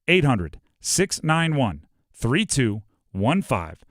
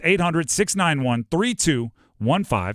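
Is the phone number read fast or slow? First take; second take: slow; fast. First: The number is read slowly. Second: The number is read quickly. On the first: "I'll say that slower" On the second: "Realized I ripped through it"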